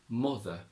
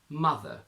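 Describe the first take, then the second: First: It has a Yorkshire 'oo'-like vowel. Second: It has a standard British 'uh' vowel. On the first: "to Yorkshire" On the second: "from R P"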